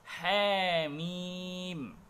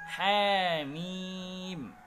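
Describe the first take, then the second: The two takes are said the same way.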